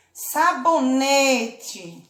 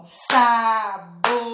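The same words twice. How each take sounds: First: Said in the usual way. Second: "sabonete" in four spaced beats, sa - bo - ne - te; split into syllables. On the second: Shown as a demonstration. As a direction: pause after every syllable of "sabonete", full final e. ("sabonete" separado em sílabas: sa - bo - ne - te) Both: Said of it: "Bati a mão quatro vezes".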